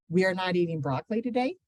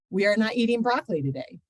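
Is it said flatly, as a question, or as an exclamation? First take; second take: question; flatly. First: It is said as a question, rising. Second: It is said flatly with no marked tune.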